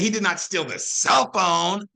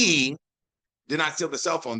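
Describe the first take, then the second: First: The stress falls on the words cell phone. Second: The stress falls on the word he. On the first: He took something else instead. "that means he stole the freaking charger" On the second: Someone else took it. "That implies that somebody else did"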